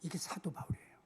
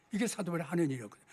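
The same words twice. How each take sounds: First: 이게 사도 바울이에요 whispered, no voice. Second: Said in the usual way. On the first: Acted. Preacher introducing Paul to the congregation, whispered. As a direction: drop to a hushed whisper.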